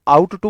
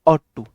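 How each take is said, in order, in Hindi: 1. पहले शब्द में 'out' वाला स्वर है। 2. पहले शब्द में 'caught' वाला स्वर है। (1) "इसे हम आउट टू बोलते हैं" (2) "वैसे ऑट टू होता है"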